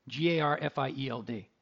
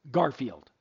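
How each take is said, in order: First: G A R F I E L D said letter by letter, each letter apart; spelled out. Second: Said in the usual way. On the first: Shown as a demonstration. Host spelling the promo code for listeners, letter by letter. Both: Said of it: "using the promo code".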